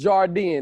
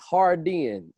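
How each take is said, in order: First: The name begins with a J sound. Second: The name begins with an H sound. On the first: The speaker calls it wrong. "I always thought it was Jardin" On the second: The speaker calls it right. "It's Hardin"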